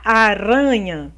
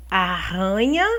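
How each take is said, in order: First: Aranha with a light tapped single R; single soft R. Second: Arranha with a strong guttural RR; strong double R. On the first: Teacher contrasting one R with two Rs in aranha. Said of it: "Se fosse só um R". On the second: Teacher showing how two Rs sound in arranha. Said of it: "mas aqui são dois R's". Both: Shown as a demonstration.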